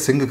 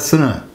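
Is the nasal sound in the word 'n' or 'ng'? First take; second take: ng; n. First: The nasal is an ng sound. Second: The nasal is a plain n sound. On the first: "तो वहाँ लगभग थोड़ा सा ये सिंह करके ठीक है" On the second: "न की आवाज़ इसमें आती है और अंग इसमें या हंग इसमें कहीं नहीं आता"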